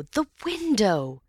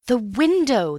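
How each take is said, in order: First: Crying out. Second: Loud urgent shout of window; crying out. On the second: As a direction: point and shout it out. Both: Acted. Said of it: "cried Antony".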